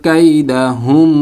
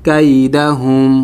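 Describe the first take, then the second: The two takes are said the same way.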